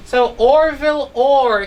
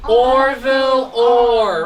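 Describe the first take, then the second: First: Said in the usual way. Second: "Orville Orr" said slowly, each syllable drawn out; slow clear model. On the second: Shown as a demonstration. Teacher modelling the name "Orville Orr" slowly for pupils. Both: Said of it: "Can we say his name again?".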